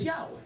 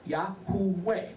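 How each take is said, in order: First: The name is said quickly, shortened to two syllables. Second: The name is said slowly with all three syllables.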